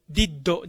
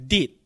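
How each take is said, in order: First: First did said as "di-ddo"; katakana final vowel. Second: Did cut short as "dit"; no final vowel. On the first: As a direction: add a full "do" to "did". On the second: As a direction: stop "did" on the consonant. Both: Shown as a demonstration. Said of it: "じゃなくて".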